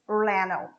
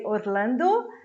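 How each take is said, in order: First: The d sound is dropped. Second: The d sound is clearly pronounced. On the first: "what you're going to hear is Orlando; this D is cut out" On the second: "So we say Orlando"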